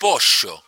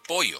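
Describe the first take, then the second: First: It is said in a Buenos Aires accent. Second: It is said in another Latin American accent.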